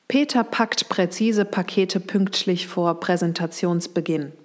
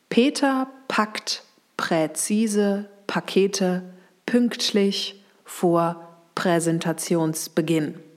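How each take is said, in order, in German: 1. Der Satz wird etwas schneller gesprochen. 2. Der Satz wird sehr langsam gesprochen. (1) "also kann ich ein bisschen beschleunigen" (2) "Ganz langsam"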